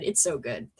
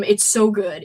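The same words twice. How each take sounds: First: "It's so good" dropped low and soft; quiet echo. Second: Said in the usual way. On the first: Real, not acted. Repeats praise, second softer.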